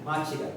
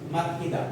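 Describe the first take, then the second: First: The middle consonant is a ch sound. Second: The middle consonant is a plain t sound. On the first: The speaker calls it right. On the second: The speaker calls it wrong. "Pag uh, walang rules"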